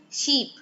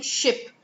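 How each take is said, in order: First: "sheep" with a long ee; long ee vowel. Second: "ship" with a short, lax i; short i vowel. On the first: Teacher showing a common learner error, "sheep" with long ee. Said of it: "a lot of people say sheep". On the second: Teacher giving the intended word, "ship" with short i. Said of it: "instead of saying ship". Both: Shown as a demonstration.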